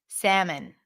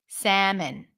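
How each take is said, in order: The two takes are said the same way.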